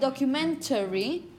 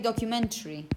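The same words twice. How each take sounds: First: The weak vowel before the ending is kept. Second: The weak vowel before the ending is dropped. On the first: "You could say documentary" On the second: "Many people simply say documentary"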